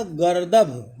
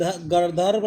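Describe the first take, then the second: First: गर्दभ said gar-dabh, falling; correct pronunciation. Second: गर्दभ with a stray r, gar-dar-bha; wrong pronunciation. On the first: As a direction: end गर्दभ cleanly on "dabh". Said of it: "जो शुद्ध दिया है". (शुद्ध उच्चारण, गर्दभ को "गर-दभ" बोलें) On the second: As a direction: add a second "r" to गर्दभ. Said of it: "गर्दभ नहीं होगा". (गलत उच्चारण, गर्दभ को "गर्दर्भ" बोलें) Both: Shown as a demonstration.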